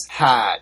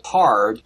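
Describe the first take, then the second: First: "had" as Boston "hard", R dropped; drawn-out R-less Boston "had"; Boston accent. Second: Said in the usual way. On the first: Shown as a demonstration. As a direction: drop the R from hard, Boston style. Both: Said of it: "any of them pronounces, for example".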